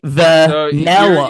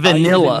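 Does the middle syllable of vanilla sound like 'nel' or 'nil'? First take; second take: nel; nil. First: The middle syllable has an E vowel, 'nel'. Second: The middle syllable has an I vowel, 'nil'. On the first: "Like I use an E" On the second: "you guys say"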